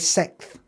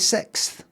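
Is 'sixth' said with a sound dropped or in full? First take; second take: dropped; full. First: The word is said with one sound dropped. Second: The word is said with every sound kept. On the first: The speaker calls it wrong. "I don't say sixth" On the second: The speaker calls it right. "I still say sixth"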